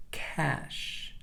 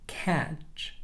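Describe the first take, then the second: First: "cash" ending in a drawn-out sh; SH sound demo. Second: "Catch" ending in a short stopped ch; CH sound demo. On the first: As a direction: let air run on ending "cash". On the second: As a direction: finish "Catch" on a brief ch burst. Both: Shown as a demonstration. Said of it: "let's compare these, these two sounds".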